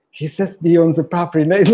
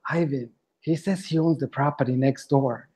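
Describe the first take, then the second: First: The penny drops mid-sentence; rising alarm. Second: Muttering to himself. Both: Retold or imitated. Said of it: "I was walking away and like".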